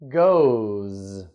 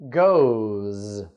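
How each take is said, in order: The two takes are said the same way.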